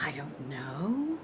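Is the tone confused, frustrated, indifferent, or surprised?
confused. It sounds confused and uncertain. The speaker is unsure whether they know.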